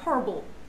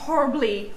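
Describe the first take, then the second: First: The final vowel is swallowed and silent. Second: The final vowel is clearly pronounced. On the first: The speaker calls it right. "You're like horrible. As if the E doesn't actually exist" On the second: The speaker calls it wrong. "don't say horribly or horrible"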